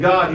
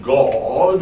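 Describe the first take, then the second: First: The word is said plainly, in an ordinary way. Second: The word is said in an affected, drawn-out way. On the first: This is the ordinary way to say it. "instead of saying God" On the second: The speaker wants to set himself apart from others. "he says God"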